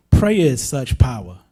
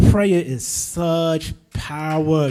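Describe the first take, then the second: First: Said in the usual way. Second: "Prayer is such power" drawn out very slowly, each word weighted; slow solemn closing line; slow emphatic. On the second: Shown as a demonstration. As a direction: lean hard on "Prayer", stretch the line.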